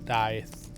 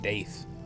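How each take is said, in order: First: The vowel is a long I sound. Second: The vowel is not a long I sound. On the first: The speaker calls it right. "It's like a long I" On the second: The speaker calls it wrong. "I just said Daith"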